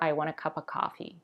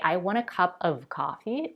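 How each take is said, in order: First: The v sound in 'of' is dropped. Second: The v sound in 'of' is pronounced. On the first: "completely dropped" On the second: "pronounced as v"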